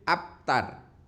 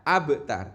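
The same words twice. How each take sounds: First: The b sound is held without a bounce. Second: The b sound is released with a bounce. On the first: The speaker calls it wrong. "tidak boleh" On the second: The speaker calls it right. "dibaca mantul, memantul"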